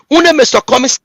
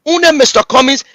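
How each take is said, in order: Both takes have the same delivery.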